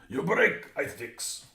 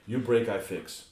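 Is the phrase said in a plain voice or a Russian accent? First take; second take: Russian; plain. First: It is said in a put-on Russian accent. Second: It is said in the speaker's ordinary accent.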